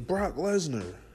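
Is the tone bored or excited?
excited. The name is said with excited enthusiasm. The wrestler's arrival is thrilling. "You'd be like, yeah, oh, he about to kick somebody's ass"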